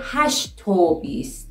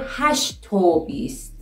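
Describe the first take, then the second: First: The conjunction is a short o joined to hasht. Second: The conjunction is a short o joined to hasht.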